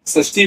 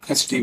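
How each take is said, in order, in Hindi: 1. यह शब्द 'sh' ध्वनि से शुरू होता है। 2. यह शब्द 'kh' ध्वनि से शुरू होता है। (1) "षष्ठी बोलिए" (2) "कुछ लोग इसका प्रोनाउंसिएशन खष्टी भी करते हैं"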